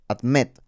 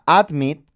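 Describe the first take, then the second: First: The stress is on the second syllable. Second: The stress is on the first syllable. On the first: "La sílaba fuerte está en la I" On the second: "Si fuera admit con el acento en la A"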